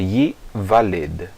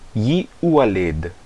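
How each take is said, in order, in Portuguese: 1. A letra do meio é pronunciada como uma consoante v. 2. A letra do meio é pronunciada como uma vogal u. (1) "é Yivaled" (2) "Não é Yiualed"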